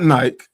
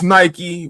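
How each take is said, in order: First: It is said the British way, one syllable. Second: It is said with the final vowel, two syllables.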